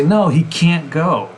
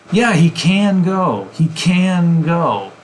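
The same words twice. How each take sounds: First: High, stressed "can't" cut off before "go"; stopped can't. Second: High, slow "can" bleeding straight into "go"; emphasized, linked can. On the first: Teacher showing emphatic can't, abrupt stop after it. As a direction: punch "can't", stop, then say "go". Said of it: "There's a pause afterwards". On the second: Teacher showing emphatic can, drawn out and linked. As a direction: stretch "can" into "go" with no stop. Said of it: "can will bleed into the next word". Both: Shown as a demonstration.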